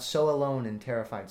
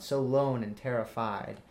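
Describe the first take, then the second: First: "alone" in two syllables, with its leading "a"; the unmetrical version, "alone" said in full; full word form. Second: "lone" as one syllable, slower, no leading "a"; slow metrical "so lone and terrified"; clipped word form. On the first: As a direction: say "so alone" with the extra unstressed syllable. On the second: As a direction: say "so lone" straight, dropping the "a" of alone. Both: Shown as a demonstration. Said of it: "not "so alone and terrified".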